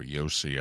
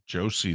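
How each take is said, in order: First: The name begins with a Y sound. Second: The name begins with a J sound.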